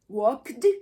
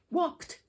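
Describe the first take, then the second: First: The ending is pronounced as a d sound. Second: The ending is pronounced as a t sound. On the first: The speaker calls it wrong. "try to pronounce this with a D sound, how awkward it may sound" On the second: The speaker calls it right. "eventually became T"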